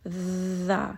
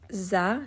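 First: The consonant is a voiced th sound. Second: The consonant is a buzzing z sound. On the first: The speaker calls it right. "sticking the tongue out between the teeth" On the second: The speaker calls it wrong. "We are not saying وَكَذَٰلِكَ za"

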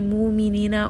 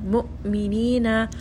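First: The hamza is soft, without a sharp stop. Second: The hamza is a sharp, abrupt stop. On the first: The speaker calls it wrong. "We don't want to say" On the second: The speaker calls it right. "Make sure you are abruptly stopping the sound"

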